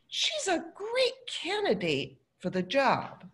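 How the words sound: It sounds sincere and positive. She really is a good candidate. "the first, I'm being positive"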